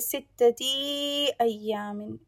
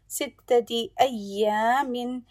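First: The final vowels of the words are drawn out. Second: The final vowels of the words are kept short. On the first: The speaker calls it wrong. "Please try not to extend the last letter of any word. Don't say" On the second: The speaker calls it right. "Just say the haraka shortly because it's a short vowel sound"

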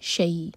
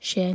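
First: The vowel glides from a into y. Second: The vowel is said as a plain vowel. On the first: The speaker calls it right. "فتح کو یا سے جوڑا جائے گا" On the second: The speaker calls it wrong. "شیء نہیں"

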